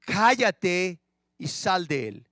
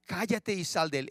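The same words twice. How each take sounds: First: Stern rebuke. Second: Said in the usual way. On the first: Acted. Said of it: "Jesús le reprendió al demonio diciendo".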